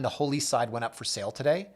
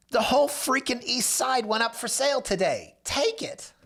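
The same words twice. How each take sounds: First: Said in the usual way. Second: High, frantic urging; freaking out. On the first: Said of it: "But that line". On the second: Retold or imitated. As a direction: push the seller like he's losing his mind. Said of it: "him freaking out on the phone".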